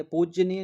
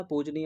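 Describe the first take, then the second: First: पूजनीय said as pooj-ji-niya, heavy middle; wrong doubled consonant. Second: पूजनीय as pooj-neeya, single light 'j'; correct pronunciation. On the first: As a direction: lean on the 'j' in पूजनीय, higher voice. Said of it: "पूजनीय नहीं होता". (पूजनीय को 'पूज्यनीय' जैसा बोलकर) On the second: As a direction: say पूजनीय without any extra sound after 'j'. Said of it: "पूजनीय होता है". (पूजनीय, हल्के 'ज' के साथ) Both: Shown as a demonstration.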